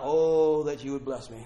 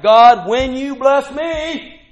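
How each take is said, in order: First: Said in the usual way. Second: God, when you bless me, loud and slow, each word firm; confident declaration. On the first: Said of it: "this is not". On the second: Shown as a demonstration. Preacher showing the confident reading of the prayer, loud and slow. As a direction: declare it, sure it will happen. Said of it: "This is like".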